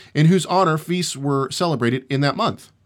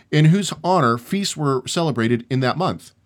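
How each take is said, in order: No difference in how they are said.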